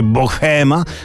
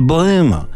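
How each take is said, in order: First: The h sound is clearly pronounced. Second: The h sound is left silent. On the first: The speaker calls it wrong. "Nie mówi się bohema" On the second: The speaker calls it right. "Ha jest tu nieme"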